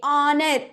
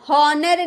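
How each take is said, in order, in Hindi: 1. यह सीधे स्वर ध्वनि से शुरू होता है। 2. यह 'h' ध्वनि से शुरू होता है। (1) "एच चुप है" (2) "हॉनर नहीं बोलेंगे"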